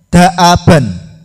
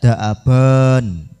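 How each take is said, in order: First: The final vowel is said short. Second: The final vowel is drawn out long. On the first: The speaker calls it right. "berbunyi an dan bacanya pendek" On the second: The speaker calls it wrong. "tidak perlu dibaca panjang. Tidak daaban, enggak"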